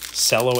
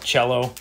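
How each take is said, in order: First: It begins like the word cellophane. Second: It begins like the musical instrument's name. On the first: The speaker calls it right. "as in cellophane" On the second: The speaker calls it wrong. "as in the musical instrument"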